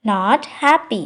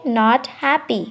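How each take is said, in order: Both takes have the same delivery.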